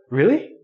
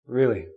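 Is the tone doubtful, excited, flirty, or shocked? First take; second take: excited; doubtful. First: The word is said in an excited tone. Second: The word is said in a doubtful tone. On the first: The listener is thrilled by the offer. "Means you're very excited. You're very happy" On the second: The listener thinks the other person is lying. "That really means I think you're lying. I don't believe you"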